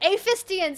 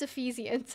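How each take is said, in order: First: The middle syllable sounds like 'fist'. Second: The middle syllable sounds like 'fee'. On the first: The speaker calls it wrong. "I can never pronounce this" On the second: The speaker calls it right. "I think it's Ephesians, actually"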